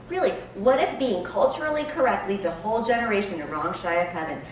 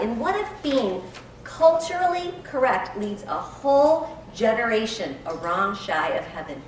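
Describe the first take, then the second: First: Rising on if, earnest; pleading repeat. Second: Builds on culturally correct; emphatic reading. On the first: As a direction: repeat it as a plea. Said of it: "my favorite line". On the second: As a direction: punch whole generation. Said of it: "listen to this. This was my favorite line". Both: Shown as a demonstration.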